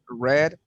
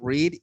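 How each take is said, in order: First: It is the past-tense pronunciation of the word. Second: It is the present-tense pronunciation of the word. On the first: The action happened in the past. "we have read in the simple past" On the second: The action happens now or habitually. "We have read in the, the simple present"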